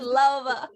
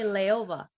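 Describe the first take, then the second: First: The name starts with a 'lau' sound. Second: The name starts with a 'lay-o' sound. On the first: This is the name's proper pronunciation. The speaker calls it right. "that's perfect" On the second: This is how most people mispronounce it. The speaker calls it wrong. "Most people they say Leova"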